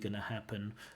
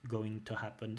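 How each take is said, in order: First: 'Going to' is shortened into one word, 'gonna'. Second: Both words of 'going to' are fully pronounced. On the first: "this shortened form of gonna" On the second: "the full form of going to"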